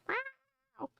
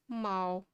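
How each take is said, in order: First: The meow is a high-pitched screech. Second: The meow is low, flat and monotone. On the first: "the high screech" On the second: "it's a very monotone meow"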